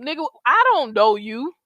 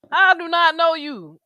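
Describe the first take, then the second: First: Said in the usual way. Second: "I do not know you" slowed, each word hit, higher and louder; slow down and punch "do not"; stress on do not. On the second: Real, not acted. Repeating the line with emphasis.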